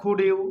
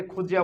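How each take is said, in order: First: Said in the usual way. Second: "খুজিয়া" with d and y fused into j; linked pronunciation. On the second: Shown as a demonstration. Teacher answers what this becomes, "খুজিয়া" with a j link. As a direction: run it together as khu-jia, "খুজিয়া". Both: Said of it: "আমরা এটাকে খুজিয়া বলবো".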